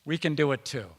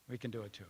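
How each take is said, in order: First: Said in the usual way. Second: Much softer, almost under the breath; a hushed second take; soft echo. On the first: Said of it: "repeated refrain, first take". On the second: Shown as a demonstration. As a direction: let the words fall away quietly. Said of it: "repeated refrain, soft echo".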